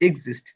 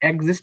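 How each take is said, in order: First: The word begins with an 'iks' sound. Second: The word begins with an 'eks' sound. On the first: The speaker calls it right. "বলা যাবে এক্সিস্ট" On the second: The speaker calls it wrong. "বলা যাবে না"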